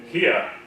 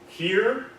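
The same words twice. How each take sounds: First: British accent with the R barely heard. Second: American accent with the R clearly sounded. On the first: "here in British" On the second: "here in American"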